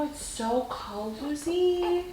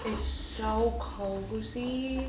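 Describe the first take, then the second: First: Very soft, very slow, higher sing-song "cozy"; soothing. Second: Very soft, very slow, at her usual pitch; soothing. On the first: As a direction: coo "it's so cozy" up high and drawn out. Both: Real, not acted. Mother swaddling fussy baby.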